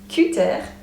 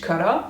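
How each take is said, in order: First: It is pronounced with French sounds. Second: It is pronounced with English sounds. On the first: "but then you pronounce it in French" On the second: "it literally has been taken from English cutter"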